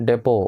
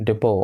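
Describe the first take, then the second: The two takes are said the same way.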